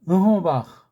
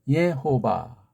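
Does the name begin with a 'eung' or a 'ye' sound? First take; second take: eung; ye. First: The name begins with an 'eung' sound. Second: The name begins with a 'ye' sound. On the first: This follows the Korean sound notation. "우리 표를 한다면" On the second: This is how the foreigners pronounce it. "걔네들 발음을 한다면"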